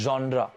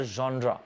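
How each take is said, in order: First: जॉनरा said again as the answer; जॉनरा, the teacher's echo; repeat for class. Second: जॉनरा with an open "zhon" and a trailing "ra"; जॉनरा, the taught form; correct pronunciation. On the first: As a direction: drill जॉनरा once more. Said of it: "क्या होता है?". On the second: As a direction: say जॉनरा slowly and clearly. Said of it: "pronunciation होता है जॉनरा". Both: Shown as a demonstration.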